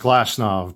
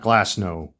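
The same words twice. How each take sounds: First: The name ends with a V sound. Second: The name ends with a W sound. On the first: The speaker calls it right. "it's pronounced Glasnow ... the W in European culture is pronounced with a V sound" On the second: The speaker calls it wrong. "not Glasnow"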